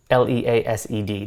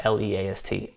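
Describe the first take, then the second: First: The right spelling, letter by letter; spelled letter by letter. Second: Name each letter of L E A S T as the wrong spelling; spelled letter by letter. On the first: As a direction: spell out L E A S E D one letter at a time. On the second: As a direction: spell out L E A S T one letter at a time, a touch softer. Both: Shown as a demonstration. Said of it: "not L E A S T".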